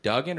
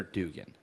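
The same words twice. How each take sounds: First: "Duggan" said DUG-un; Duggan with short u. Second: "Dugan" said DOO-gun; Dugan with long oo. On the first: Checking Max's surname, "Duggan" with short u as in "dug". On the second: Checking Max's surname, "Dugan" with long oo as in "do". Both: Shown as a demonstration. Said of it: "is it Duggan or Dugan".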